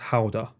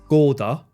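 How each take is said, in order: First: The name is said the Dutch way. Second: The name is said the Japanese way. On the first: "But it's actually pronounced Howda" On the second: "In Japan, they pronounce it Gouda"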